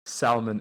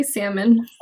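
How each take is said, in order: First: Salmon with a clearly sounded L; L pronounced. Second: Salmon without any L sound; silent L. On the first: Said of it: "I pronounce the L". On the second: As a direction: drop the L in "salmon". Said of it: "you don't pronounce the L". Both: Real, not acted.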